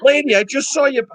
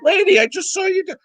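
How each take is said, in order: First: Higher, stress on "saw" in "Lady, I just saw you"; exasperated retort. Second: Much higher, stress on "Lady" in "Lady, I just saw you do"; exasperated retort. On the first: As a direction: pitch up and lean hard on "saw". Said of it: "And I'm like". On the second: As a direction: pitch well up and hit "Lady" first. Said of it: "I'm like". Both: Retold or imitated.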